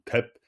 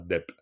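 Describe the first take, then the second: First: The word begins with a t sound. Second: The word begins with a d sound. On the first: The speaker calls it right. "on dit tep" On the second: The speaker calls it wrong. "on dit pas dep"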